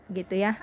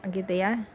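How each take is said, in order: The two takes are said the same way.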